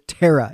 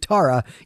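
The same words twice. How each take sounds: First: The first vowel sounds like the word tear. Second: The first vowel sounds like the word tar. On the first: This is how her name is really said. The speaker calls it right. "Giles simply cannot say Tara" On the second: This is a mispronunciation of her name. The speaker calls it wrong. "It has to be Tara, even though that's not her name"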